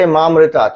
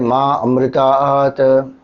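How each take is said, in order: First: The two parts run together as one word. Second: The two parts are said as separate words. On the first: The speaker calls it right. "When we chant, we say Mamritat" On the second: The speaker calls it wrong. "We don't say Ma Amritat"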